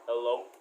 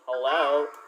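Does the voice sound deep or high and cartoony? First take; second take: deep; high and cartoony. First: The voice is lowered to sound deep. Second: The voice is raised to sound high and cartoony. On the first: "to a deeper one" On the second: "more Minion cartoony like, like this"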